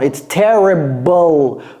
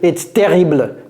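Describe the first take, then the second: First: The ending is said English-style, like 'bull'. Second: The ending is said French-style, like 'ble'. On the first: The speaker calls it right. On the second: The speaker calls it wrong.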